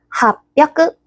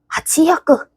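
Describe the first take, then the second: First: Fused into one word with a doubled consonant. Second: Two separate parts with no sound change. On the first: The speaker calls it right. "바꿔주자. 해서" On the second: The speaker calls it wrong. "근데 발음이 어렵다"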